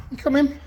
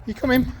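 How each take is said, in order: First: High, insistent call to the dog; high level come-in call; coaxing call. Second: High, singsong call to the dog; rising high come-in call; coaxing call. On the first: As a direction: call him in again, pitched high. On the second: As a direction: coax him inside with a high voice. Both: Real, not acted.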